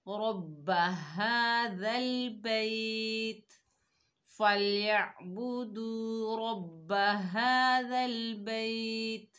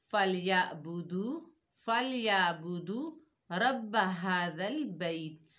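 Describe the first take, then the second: First: रब्बा with heavy र, हाजल बैत drawn out slowly; correct tajweed. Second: फलयाबुदू रब्ब हादल बैत with thin र and no ع; wrong recitation. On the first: Teacher showing students the right recitation, slow chant. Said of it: "खड़ा जबर पढ़ेंगे और वक्फ सही करेंगे". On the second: Teacher demonstrating the common mistake, careless reading. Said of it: "अब इसमें गलती क्या है?". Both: Shown as a demonstration.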